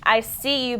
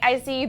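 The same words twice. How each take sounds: First: It is said with a sly, shady tone. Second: It is said with a warm, sincere tone. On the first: The praise is backhanded. "putting and in quotes twang on it" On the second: The praise is genuine. "It's not like I see you, boo. You killed it"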